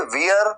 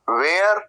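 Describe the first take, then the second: First: It is said with a 'weer' vowel glide. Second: It is said with a 'wear' vowel glide. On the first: "ऐसे नहीं" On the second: "वेयर ऐसे नहीं"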